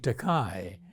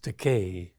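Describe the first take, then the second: First: The last syllable does not rhyme with 'day'. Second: The last syllable rhymes with 'day'. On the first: The speaker calls it wrong. "Many people mispronounce my surname" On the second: The speaker calls it right. "It rhymes with Takei"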